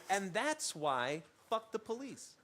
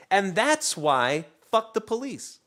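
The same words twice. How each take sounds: First: Quiet callback. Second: Said in the usual way. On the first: Real, not acted. Callback mutter.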